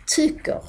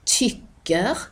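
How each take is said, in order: First: "tycker" as "tucker", u for y; Malmö short Y. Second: Said in the usual way. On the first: Shown as a demonstration. Teacher showing what it becomes, "tycker" as "tucker". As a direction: say "tycker" with a rounded u.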